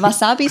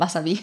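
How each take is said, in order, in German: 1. Das Wort wird langsam und gedehnt gesagt. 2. Das Wort wird schnell und flüssig gesagt. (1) "Nicht Wasabi" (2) "sondern einfach Wasabi. ... Einfach schnell aussprechen"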